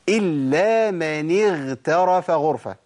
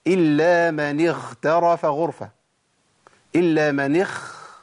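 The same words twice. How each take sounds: First: "اغترف" with a voiced, breathless غ; slow "اغترف", غ held voiced; correct voiced ghain. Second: "اغترف" with air on the غ near خ; breathy ghain error. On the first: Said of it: "أنا قلتها صح كده". (غين مجهورة في "اغترف") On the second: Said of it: "خاء ولا لأ؟". ("اغترف" بنفس يقربها من الخاء) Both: Shown as a demonstration.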